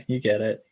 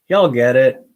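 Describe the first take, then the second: First: Said in the usual way. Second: Loud jokey y'all voice; put-on voice. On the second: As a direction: punch it like a hype man. Voiced repeat of the phrase.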